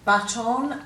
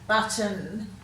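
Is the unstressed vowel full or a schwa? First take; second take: full; schwa. First: The second vowel is full, as spelled. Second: The second vowel is reduced to a schwa. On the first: It makes the spelling easier. "if you say them correctly as they've spelt" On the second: This is how it is normally said. "We tend to give a schwa sound"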